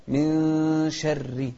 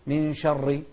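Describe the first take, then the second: First: من شر with the نون hidden into the ش, slow; من glides nasally into شر, نون not fully said; correct way. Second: من شر with the نون of من clearly sounded; من said with a full, plain نون; wrong way. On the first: Teacher showing pupils the hidden نون, slow and careful. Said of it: "لا، من شر". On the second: Teacher showing pupils the mistake of sounding the نون. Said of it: "ما نقول من شر". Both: Shown as a demonstration.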